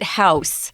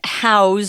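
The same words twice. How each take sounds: First: The word ends with a hissing s sound. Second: The word ends with a buzzing z sound. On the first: It is the noun for a building. The speaker calls it wrong. "Don't pronounce it house" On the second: It is the verb meaning to hold something. The speaker calls it right. "it's house with a Z"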